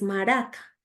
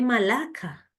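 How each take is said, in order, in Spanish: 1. El sonido del medio suena como una R. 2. El sonido del medio suena como una L. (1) "y es maraca" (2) "Me dijiste malaca"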